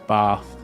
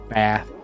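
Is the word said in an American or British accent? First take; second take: British; American. First: It is said with a British accent. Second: It is said with an American accent.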